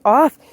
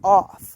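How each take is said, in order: First: It is said lightly, in a playful tone. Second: It is said sharply, in a firm tone. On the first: The dog thinks it is a game. The speaker calls it wrong. "that sounds playful to him" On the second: This behavior is not accepted. The speaker calls it right. "you put your foot down and you say"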